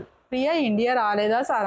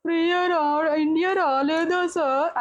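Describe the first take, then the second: First: Said in the usual way. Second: Put-on high, slow, childlike plea to the host; innocent pleading contestant. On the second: Contestant asking the host about his wife, in a high, slow, innocent voice. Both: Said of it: "అన్నాడు".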